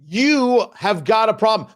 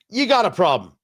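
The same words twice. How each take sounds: First: Slow, each word weighted, stress on "have"; slow emphatic warning. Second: Said in the usual way. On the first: Acted. Radio host warning religious leaders, slow and emphatic. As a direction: lean on "have got" slowly, like a threat.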